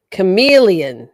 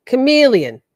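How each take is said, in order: First: "Chameleon" said loud, hard k, mocking chat's version; loud imitation of "Chameleon". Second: "Chameleon" loud, falling, her own way; "Chameleon" as she says it. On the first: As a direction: blurt "Chameleon" louder, as they'd have it. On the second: Shown as a demonstration. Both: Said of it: "That's not how I say it".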